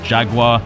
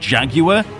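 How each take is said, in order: First: It is said with an American pronunciation. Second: It is said with a British pronunciation. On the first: "in the V H Ses of the films I watched with American dubbings, they always pronounced it Jaguar" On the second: "In the U K, we pronounce this cat Jaguar"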